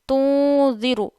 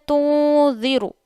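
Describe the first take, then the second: Both takes have the same delivery.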